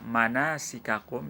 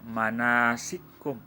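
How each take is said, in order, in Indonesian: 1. Dua bunyi k itu diucapkan terpisah. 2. Dua bunyi k itu menyatu menjadi satu. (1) "ada kaf bertemu dengan huruf kaf" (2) "dibaca manasikum"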